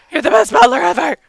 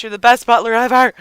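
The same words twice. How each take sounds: First: Quick, silly character-voice echo; lightly hammed-up quick echo; put-on voice. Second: Said in the usual way. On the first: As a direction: repeat it in a playful put-on voice. Repeats praise in put-on voice.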